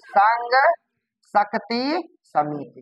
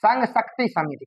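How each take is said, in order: First: Word by word with long pauses; dictating. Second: Said in the usual way. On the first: Shown as a demonstration. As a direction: give the name slowly for the class to catch. Teacher repeats name for class.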